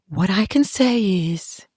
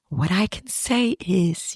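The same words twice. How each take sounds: First: Slightly raised, prim and earnest; mock earnest sister; prim after-school special voice. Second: Slow, softer, primly earnest; slow prim after-school special. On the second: Retold or imitated. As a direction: mimic the sister's solemn TV-special tone. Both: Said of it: "after-school special face. and voice".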